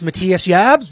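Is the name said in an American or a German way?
German. The name is said with its original German pronunciation.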